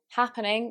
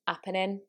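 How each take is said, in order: First: The word begins with an h sound. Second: The word begins without an h sound.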